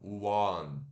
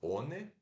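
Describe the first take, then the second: First: It is said with English sounds, starting with w. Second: It is read as spelled, Portuguese style. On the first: The speaker calls it right. "Mas se pronuncia" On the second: The speaker calls it wrong. "como se fosse one"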